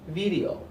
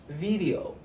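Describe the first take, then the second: Both takes have the same delivery.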